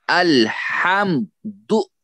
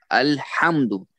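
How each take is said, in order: First: "अल्हम्दु" very slow, high, as अल-हम-दु; broken into syllables. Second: Said in the usual way. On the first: Shown as a demonstration. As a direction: stretch अल्हम्दु out, each syllable separate and raised. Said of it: "तो अलग अलग करके हम तोड़ेंगे". (अल्हम्दु को धीरे, तोड़कर, ऊँचे सुर में) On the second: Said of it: "इसमें तीन सिलेबल्स हैं".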